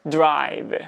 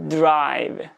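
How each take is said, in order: First: Throat voicing begins before the d bursts. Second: Throat voicing begins before the d bursts.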